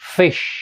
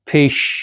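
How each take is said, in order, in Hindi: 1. यह ऊपरी दांत निचले होंठ को छूने से शुरू होता है। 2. यह एक breathy p से शुरू होता है, जो दोनों होंठों से बनता है। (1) "ऐसे बोलेंगे हम" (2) "अभी तक अगर आप फ बोलते थे जैसे कि ... तो ऐसा नहीं बोलेंगे"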